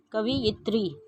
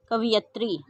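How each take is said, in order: First: कवयित्री with "yi" before tri; कवयित्री ending in yit-ri; correct pronunciation. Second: कवयित्री as "kaviyatri"; कवयित्री misread as ka-vi-yat-ri; wrong pronunciation. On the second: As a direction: say कवयित्री with "ya" before tri. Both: Shown as a demonstration. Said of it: "अशुद्ध और फिर शुद्ध".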